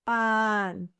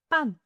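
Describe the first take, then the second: First: PAN with a long, held A; slow, sustained "pan" for the listener; drawn-out demonstration. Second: Said in the usual way. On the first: Shown as a demonstration. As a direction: stretch the vowel in "pan". Word stretched for listening practice.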